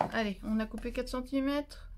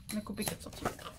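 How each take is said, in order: First: Said in the usual way. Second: Breathed aside, no voice; whispered repeat. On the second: Real, not acted. Repeating the step to herself, whispered. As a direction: whisper it to yourself.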